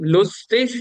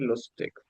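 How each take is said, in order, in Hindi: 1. शब्द का अंत एक नरम sh जैसी ध्वनि से होता है। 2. शब्द का अंत एक कड़ी k ध्वनि से होता है। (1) "इसको हम शिन भी पढ़ सकता है" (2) "इसको इग भी पढ़ लेते हैं"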